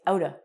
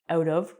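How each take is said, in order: First: The words blend into one reduced word. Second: Both words are said fully and separately. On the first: The speaker calls it right. "we say outta" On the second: The speaker calls it wrong. "we don't say out of"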